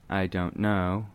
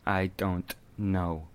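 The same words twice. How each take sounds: First: The d, t and n sounds are relaxed. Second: The d, t and n sounds are strongly articulated. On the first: "instead of saying" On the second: "let's over-accentuate each of these dental sounds"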